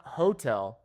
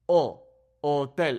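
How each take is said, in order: First: Hotel as hoh-TEL with h sounded; anglicised "hotel"; English H. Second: O alone, then hotel as oh-TEL; slow Spanish "hotel" starting on o; silent H. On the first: Teacher shows what to avoid, hotel with audible h. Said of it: "So it's not hotel". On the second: Teacher corrects learners, hotel with no h. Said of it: "like it doesn't exist". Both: Shown as a demonstration.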